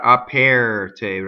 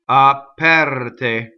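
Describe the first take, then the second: First: The stressed vowel sounds like the one in 'chair'. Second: The stressed vowel is unlike the one in 'chair'. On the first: The speaker calls it wrong. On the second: The speaker calls it right.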